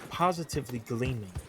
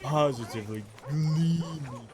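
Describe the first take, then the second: First: It is said in an ordinary speaking voice. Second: It is said in a put-on announcer voice. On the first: The speaker calls it wrong. "but he didn't say it like that" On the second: The speaker calls it right. "you remember how he said it? He said it like"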